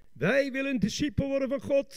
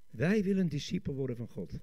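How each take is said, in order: First: High, fervent preacher's proclamation; rousing declaration. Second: Said in the usual way. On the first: Shown as a demonstration. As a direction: declare it fervently to the whole congregation. Rousing take after the subdued one. (vurig verkondigend)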